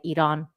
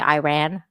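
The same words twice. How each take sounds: First: Iran is said with a native Persian pronunciation. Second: Iran is said with an English-speaker pronunciation. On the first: This is how people from the country say it. The speaker calls it right. "in Iran, like, you know, we say Iran" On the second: This is how outsiders say it. The speaker calls it wrong.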